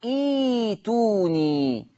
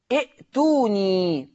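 First: ايتوني with a long drawn ee replacing the hamza; hamza turned to yaa. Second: ائتوني with a stopped glottal hamza after the first vowel; hamza sounded. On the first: Teacher demonstrating recitation for students, ايتوني with long smooth ee. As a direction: stretch ايتوني slowly, ee-tuu-nii, no glottal stop. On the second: Teacher showing the written word to students, hamza sounded in ائتوني. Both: Shown as a demonstration. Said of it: "تقرأ ايتوني".

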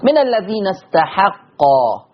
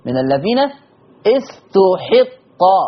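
First: Slow استحقا with open ta and ha; a vowels on ta and ha of استحقا; Hafs reading. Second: Very slow استحقا with u on ta, i on ha; Warsh reading. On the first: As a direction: say استحقا as "istahaqqa". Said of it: "فتح التاء". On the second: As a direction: say استحقا as "ustuhiqqa". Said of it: "ضم التاء وكسر الحاء". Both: Shown as a demonstration.

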